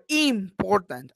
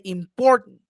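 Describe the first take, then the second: First: "important" as IIM-portant, first syllable stretched; wrong first-syllable stress. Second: "important" as im-POR-tant; middle-syllable stress. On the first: Teacher showing a wrong stress, slow on the first syllable. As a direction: lean slowly on the IM of "important". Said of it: "I don't say". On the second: Teacher giving the correct word, stressed in the middle. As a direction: hit the POR of "important", short last syllable. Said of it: "I say". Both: Shown as a demonstration.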